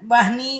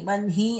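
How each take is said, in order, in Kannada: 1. h ಶಬ್ದ n ನ ಮೊದಲು ಬರುತ್ತದೆ. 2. h ಶಬ್ದ n ನ ನಂತರ ಬರುತ್ತದೆ. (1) "ಅಂದ್ರೆ ಅದು ಇಲ್ ತಪ್ಪಾಗುತ್ತೆ" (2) "ವನ್ಹಿ ಅಂತಾನೆ ಹೇಳ್ಬೇಕು"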